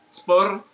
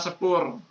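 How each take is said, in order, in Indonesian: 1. Bunyi s langsung bertemu dengan p. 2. Vokal e pendek memisahkan s dan p. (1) "Jadinya sepur bukan spur" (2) "ditambah se, jadinya sepur"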